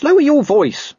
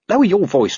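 First: Very high, louder warning; urgent, pitch leaping right up; more frantic hushing. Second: High-pitched urgent warning; anxious hushing. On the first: Dog hushing watchman in the street, frantic and louder. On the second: Dog hushing watchman in the street, high and anxious. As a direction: warn him off, first take. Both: Acted.

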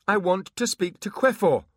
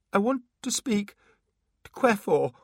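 First: Louder, firmer high plea. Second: High, shaking timid plea; trembling voice. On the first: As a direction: push it a little louder. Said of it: "with a little more volume". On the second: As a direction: ask fearfully, voice shaking. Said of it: "in a trembling voice". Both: Acted.

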